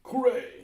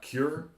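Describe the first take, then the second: First: It does not sound like English cure. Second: It sounds like the English word cure. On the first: The speaker calls it right. "That's how you say it, right?" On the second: The speaker calls it wrong. "Not cure"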